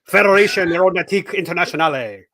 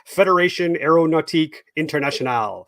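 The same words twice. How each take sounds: First: It is said with an exaggerated French accent. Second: It is read with a mild French accent. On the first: "Let me get my hat on. All right, how about this? ... Better" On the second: "It just it sounds better that way"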